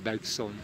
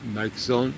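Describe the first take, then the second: First: The middle consonant is sounded as a hissing s. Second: The middle consonant is sounded as a buzzing z. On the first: The speaker calls it wrong. "non pas Bergson" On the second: The speaker calls it right. "il nous conseillait de le prononcer comme Bergson"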